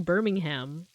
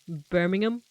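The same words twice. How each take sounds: First: The ending is said fully as ham. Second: The h in the ending is silent. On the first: This is how it is said in America. "we say Birmingham, like Birmingham Big Ham" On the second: This is how it is said in the UK. "Like you don't say the H"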